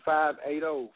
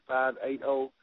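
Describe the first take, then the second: No difference in how they are said.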